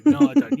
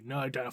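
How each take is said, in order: First: Petulant refusal. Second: Much softer and lower, sulking it out; muttered refusal. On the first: Flesh Tearer refusing the sergeant, a higher mock whine. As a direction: whine the no back at him. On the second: Flesh Tearer giving in to the sergeant, a softer lower sulk. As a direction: grumble the no under your breath. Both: Retold or imitated. Retold back-and-forth refusal.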